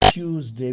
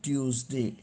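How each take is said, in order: First: The word begins with a 'choo' sound. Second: The word begins with a 'tyoo' sound. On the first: "is प्रोनाउन्स्ड as ट्यूजडे बी because it spells as T U E, च्यू" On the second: "But some people pronounce it as Tuesday also"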